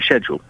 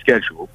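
First: It begins with a 'sh' sound, British style. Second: It begins with a 'sk' sound, American style. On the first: This is how the British say it. "we say school, but we turn around and say schedule" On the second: This is how Americans say it. "she's American, and obviously they say schedule"

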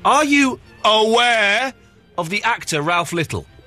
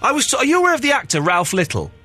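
First: The word 'aware' gets strong stress. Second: No word gets any special stress.

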